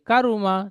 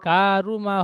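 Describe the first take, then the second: First: The first vowel is kept short. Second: The first vowel is drawn out long. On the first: The speaker calls it right. "ঠিক এমন স্পিডে বলতে হবে" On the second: The speaker calls it wrong. "কা টান হয়ে যাচ্ছে"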